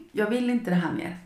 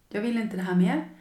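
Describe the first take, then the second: No difference in how they are said.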